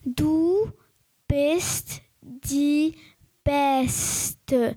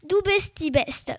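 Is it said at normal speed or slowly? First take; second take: slowly; normal speed. First: It is said slowly, word by word. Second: It is said at normal speed.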